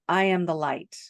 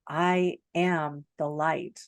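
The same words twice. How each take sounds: First: It is said plainly, with little expression. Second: It is said with changed, heartfelt inflection. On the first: The words are just recited. The speaker calls it wrong. "Like you go from" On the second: The words are truly meant. The speaker calls it right. "you'll notice your inflection changes"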